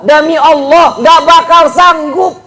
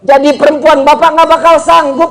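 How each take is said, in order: First: "bakal" stretched out with a rise, the whole line slow; slow, earnest vow with "bakal" drawn out; slow emphatic oath. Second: Said in the usual way. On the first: Real, not acted. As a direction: swear it slowly, leaning hard on "bakal".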